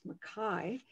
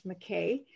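First: "Mackay" pronounced muh-KYE; Mackay rhyming with sky. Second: "McKay" pronounced muh-KAY; McKay rhyming with day. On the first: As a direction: say "Mackay" with the last syllable like "eye". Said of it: "I don't know if that's pronounced correctly". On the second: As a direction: say "McKay" with the last syllable like "kay". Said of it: "more people pronounce it as McKay". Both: Shown as a demonstration.

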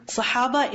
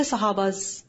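First: Said in the usual way. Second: "sahabas" with an English z tacked on the end; wrong plural. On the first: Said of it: "Sahaba itself is plural". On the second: Shown as a demonstration. Teacher tells students what not to say, "sahabas" ending in an English z. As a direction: close "sahabas" on an added z sound. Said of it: "don't say sahabas".

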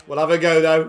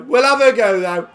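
First: Said in the usual way. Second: Higher, louder repeat; excited repeat of the shot call. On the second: Real, not acted. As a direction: lift it with excitement. Excited second take.

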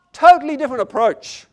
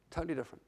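First: Loud, high preacher's proclamation; emphatic exclamation. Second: Soft, understated echo; quiet repeat. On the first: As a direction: belt it out to the congregation. Emphatic take, then quiet repeat. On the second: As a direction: drop right down and let it settle. Quiet repeat after loud take. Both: Real, not acted.

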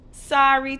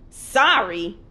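First: Sorry said higher and louder as a sheepish apology; clumsy apology. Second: Sorry? thrown back loud and indignant; shouted. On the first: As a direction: blurt a quick sorry. Pumbaa apologizes after crashing. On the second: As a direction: yell Sorry? back at the warthog. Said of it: "shouted Timon". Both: Acted.

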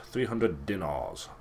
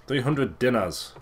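First: "dinars" with a long open final "-ars"; drawn-out DINARS. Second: "dinners" with a short, weak final "-ers"; punned as DINNERS. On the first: Player reading out the currency, "dinars" ending in a long "ah". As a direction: slowly stretch the end of "dinars". Currency read, then punned as dinners. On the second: Player joking about the payment, "dinners" as in meals. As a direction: say "dinners" like evening meals, slowly. Pun on dinars, steak and chips. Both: Shown as a demonstration.

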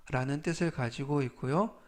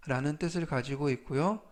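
The two takes are said the same way.

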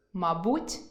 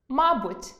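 First: Мабуть stressed on у, мабу́ть, quieter; stress on the second syllable. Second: Мабуть stressed on а, ма́буть; stress on the first syllable. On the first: Teacher giving the variant мабу́ть. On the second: Teacher demonstrating ма́буть. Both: Shown as a demonstration. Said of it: "Наприклад".

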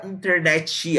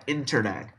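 First: "internet" as "inter-netchee"; added final vowel. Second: "internet" lower, ending on t; no extra vowel. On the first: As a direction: wrongly add an ee after the t of "internet". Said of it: "A gente não fala". ("internet" como "internétchi") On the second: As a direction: stop "internet" at the final t. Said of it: "a gente fala". ("internet" terminando no t, sem i) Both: Shown as a demonstration.

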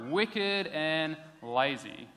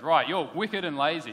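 First: Each word drawn out slowly, weighted on wicked; slow emphasis. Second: A stern boss's louder telling-off; brisk, louder mock reprimand on "Right". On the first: Shown as a demonstration. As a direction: lean hard on "wicked", slowly. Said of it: "what the master calls this servant". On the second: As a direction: play the boss scolding you in his office. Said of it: "The boss ever calls you into his office and goes".

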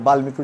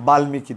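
First: বাল্মীকি said as "balliki", double l and no m; common mispronunciation. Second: বাল্মীকি said as "bal-mi-ki"; ম pronounced. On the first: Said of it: "অনেকে বলে থাকে". (বাল্মীকি-কে "বাল্লিকি" উচ্চারণ) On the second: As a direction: sound l, then a clear m in বাল্মীকি. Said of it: "এটা সঠিক উচ্চারণ হবে". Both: Shown as a demonstration.

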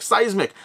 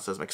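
First: "Seismic" with a long i, higher pitched; corrected pronunciation. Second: "sismic" with a short i in the first syllable; wrong pronunciation. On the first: Host correcting the game title for viewers, pronounced with long i. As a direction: say "Seismic", first syllable rhyming with "size". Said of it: "I think it's seismic". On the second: Host rejecting his first reading of the game title, mispronounced. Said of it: "I think it's seismic, not sismic". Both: Shown as a demonstration.

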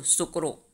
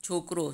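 First: છોકરો begun with "s" for "chh"; chh turned sibilant. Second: Said in the usual way. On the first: Shown as a demonstration. Teacher showing students the dialect છ, છોકરો said "sokro". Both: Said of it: "છનો શ".

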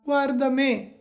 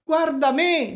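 First: Much higher sly fox voice; the lame fox pointing at herself. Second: Even higher, louder cat voice; the blind cat echoing the fox. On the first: Fox warns. (la volpe furba, voce molto più alta) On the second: (il gatto che fa eco, voce molto più alta e forte) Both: A narrator's reading.

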